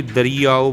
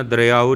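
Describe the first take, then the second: First: ਦਰੀਆਓ with a long ee. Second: ਦਰਿਆਓ with ee cut to a glide; shortened vowel. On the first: Teacher gives the right reading, ਦਰੀਆਓ with long ee. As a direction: say ਦਰੀਆਓ as da-ree-aa-o. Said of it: "ਇਹਨੂੰ ਵੀ ਦਰੀਆਓ ਬੋਲਣਾ". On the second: Teacher shows the mistake, ਦਰਿਆਓ with short i. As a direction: say ਦਰਿਆਓ quickly as dar-yaa-o. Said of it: "ਦਰਿਆਓ ਨਹੀਂ ਕਹਿਣਾ". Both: Shown as a demonstration.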